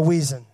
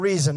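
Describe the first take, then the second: First: The word begins with a W sound. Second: The word begins with an R sound. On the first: The speaker calls it wrong. "not the weason" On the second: The speaker calls it right. "or the reason"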